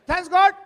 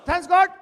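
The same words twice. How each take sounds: The two takes are said the same way.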